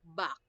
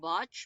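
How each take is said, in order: First: The word ends with a k sound. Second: The word ends with a ch sound. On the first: The speaker calls it right. "it's not batch, but back" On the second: The speaker calls it wrong. "I don't want to hear anyone saying it's batch"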